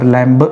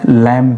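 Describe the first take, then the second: First: The word ends with an audible b sound. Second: The word ends in m with no b. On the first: The speaker calls it wrong. "यहाँ पर लैम्ब नहीं पढ़ेंगे" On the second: The speaker calls it right. "आप लैम पढ़ेंगे"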